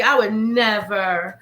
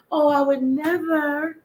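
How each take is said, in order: First: Said in the usual way. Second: High, slow, prissy "I would never"; dainty co-host voice. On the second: Acted. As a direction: say it like a prim little lady.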